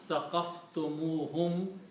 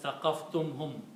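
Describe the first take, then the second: First: An 'oo' vowel links 'tum' to 'hum'. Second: 'Tum' runs straight into 'hum' without a vowel. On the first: The speaker calls it right. "it's better sounding, better balancing" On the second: The speaker calls it wrong.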